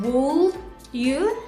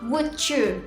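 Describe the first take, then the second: First: An L sound is pronounced in 'would'. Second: No L sound is pronounced in 'would'. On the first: The speaker calls it wrong. "bukan would you" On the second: The speaker calls it right. "tapi would you"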